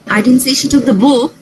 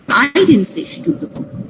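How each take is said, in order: First: The stress falls on the word book. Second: The stress falls on the word I. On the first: She took something else. "which means that she took the diary or the pen or my phone" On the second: Someone else said it. "It means someone else said that she took the book"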